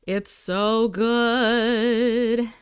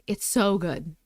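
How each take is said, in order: First: Slow drawn-out savouring. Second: Said in the usual way. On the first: Real, not acted. Eating on her live, slow drawn-out savouring. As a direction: stretch every word very slowly, lingering on good.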